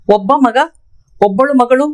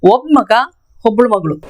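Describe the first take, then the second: First: Said in the usual way. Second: ಒಬ್ಬಳು ಮಗಳು clipped to oblu magḷu; ಒಬ್ಬ ಮಗ ಒಬ್ಬಳು ಮಗಳು said quickly, as in everyday talk; ಒಬ್ಬಳು squeezed short, casual Kannada; conversational flow. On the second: Shown as a demonstration. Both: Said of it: "इसको हम बात करने का फ्लो में बोलेंगे".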